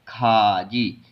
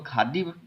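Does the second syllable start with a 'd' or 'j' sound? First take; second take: j; d. First: The second syllable starts with a 'j' sound. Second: The second syllable starts with a 'd' sound. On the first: The speaker calls it right. "इसको हम पढ़ते हैं खाजी" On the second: The speaker calls it wrong. "इसको खादी, इसके रूल के अकॉर्डिंग"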